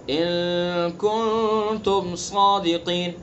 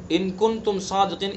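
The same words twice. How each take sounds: First: ان کنتم صادقین slowly, each n held as a nasal hum; ikhfa. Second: ان کنتم صادقین with short plain n sounds; missing ikhfa. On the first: Teacher demonstrating ikhfa, long nasal holds in ان کنتم صادقین. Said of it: "اسی طرح کہیں اخفا ہے". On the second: Teacher showing the mistake, unheld n in ان کنتم صادقین. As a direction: run through ان کنتم صادقین without any nasal hold. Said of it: "اس طرح سے پڑھ دیا". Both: Shown as a demonstration.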